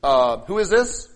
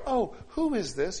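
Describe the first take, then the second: First: Loud, slow, suspicious phone answer; critical suspicion. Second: Pleasant curiosity. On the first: Answering an unrecognized caller, critical and suspicious. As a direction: draw it out loudly, as if judging the stranger. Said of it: "do you go like this". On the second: Answering an unknown caller without criticism, pleasantly curious. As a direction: draw it out lightly, pitched up. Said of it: "You don't do that". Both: Acted.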